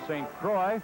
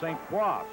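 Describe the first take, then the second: First: The name is said with an English pronunciation. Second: The name is said with a French pronunciation. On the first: This is how locals say it. "here in Philadelphia, they sometimes pronounce his name" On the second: This is the original French form. "The correct French pronunciation is"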